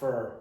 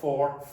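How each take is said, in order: First: The vowel is reduced, like 'fur'. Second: The vowel is full, like 'or'. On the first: The speaker calls it right. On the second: The speaker calls it wrong. "Not for"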